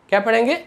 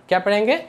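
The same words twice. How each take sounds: Both takes have the same delivery.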